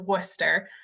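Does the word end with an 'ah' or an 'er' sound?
er. The word ends with an 'er' sound. "that is how you pronounce that"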